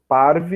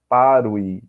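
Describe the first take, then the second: First: The sound after r is a v consonant. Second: The sound after r is a u vowel. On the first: "eu vou ler como V" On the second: "Mas não é errado"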